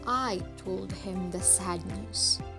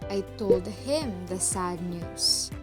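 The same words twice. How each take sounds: First: The word "I" carries the main stress. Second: The word "him" carries the main stress. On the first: It says who gave the news. "who told him the sad news?" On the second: It says who received the news. "To whom did I relay the news?"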